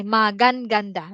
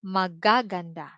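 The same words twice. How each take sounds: First: "magan ganda" with the whole first syllable gan doubled; "magan ganda" split into two parts, gan doubled; wrong form. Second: "magaganda" with only ga doubled, ma-ga-ga-nda; "magaganda" run together, ga said twice; right form. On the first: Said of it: "we're not going to say". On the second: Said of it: "No, it's just maga". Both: Shown as a demonstration.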